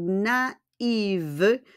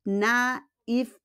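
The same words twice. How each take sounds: First: "naive" as "nah-eev", ending in a voiced V; feminine ending. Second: "Naif" as "nah-eef", ending in F; two separate syllables in "Naif", higher; masculine ending. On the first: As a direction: lengthen the "ee" before the V in "naive". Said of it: "babae po yun". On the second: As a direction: finish "Naif" on an unvoiced "fff" sound. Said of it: "pag lalaki". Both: Shown as a demonstration.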